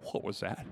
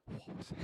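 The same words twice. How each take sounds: First: A low, hushed question in the dark; softly spooked question; hushed "what was that". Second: A breathless whisper of "What was that?"; frightened whisper in the dark. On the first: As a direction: ask under your breath, spooked. Lying in bed, hearing a noise. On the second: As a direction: whisper it as if something is in the room. Hearing a noise in bed. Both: Retold or imitated.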